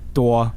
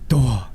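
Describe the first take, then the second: First: The word has a plain, level tone. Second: The word has a low, breathy tone. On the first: It means to kill. "with like no tone" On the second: It means to die. "that's like a low aspirated"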